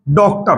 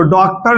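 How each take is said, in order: First: डॉक्टर said as doktar, rounded o; correct pronunciation. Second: डॉक्टर said as daktar with flat a; the unrounded डॉक्टर; wrong pronunciation. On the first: Teacher recapping the right doktar. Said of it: "होता है". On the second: Teacher recapping the wrong daktar. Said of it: "नहीं होता". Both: Shown as a demonstration.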